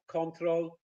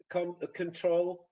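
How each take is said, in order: First: Control said conTROL; English stress. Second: Control said CONtrol; Polish-style stress. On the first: Teacher models the English control. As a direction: say control with the stress on the second syllable. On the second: Teacher imitates the Polish stress in control. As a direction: say control with the stress on the first syllable. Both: Shown as a demonstration. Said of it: "completely different places where the stress is".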